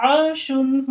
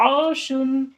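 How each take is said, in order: The two takes are said the same way.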